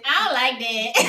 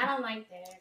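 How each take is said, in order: First: It is said in an imitated Miami accent. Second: It is said in the speaker's plain voice.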